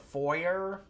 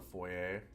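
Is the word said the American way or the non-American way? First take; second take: American; non-American. First: It is said the American way. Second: It is said the speaker's own, non-American way.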